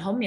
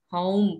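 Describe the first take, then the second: First: "home" with a plain short O; wrong vowel in home. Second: "home" drawn out with a gliding O; correct vowel in home. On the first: Teacher showing the misreading, "home" as hom. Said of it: "bacanya bukan home". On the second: Teacher modelling the right reading, slow gliding "home". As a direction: stretch "home" into an oh-u glide. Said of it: "pakai E ya". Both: Shown as a demonstration.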